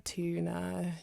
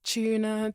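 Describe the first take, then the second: First: "tuna" begun with a hard "t"; American-style "tuna", plain t onset; American TU sound. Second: "tuna" begun with a "ch"; British-style "tuna", ch onset; British TU sound. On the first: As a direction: say "tuna" as "too-na". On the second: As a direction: say "tuna" as "choo-na". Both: Shown as a demonstration. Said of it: "how the T U sound changes".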